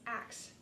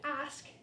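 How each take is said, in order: First: The k sound comes before the s. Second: The s sound comes before the k.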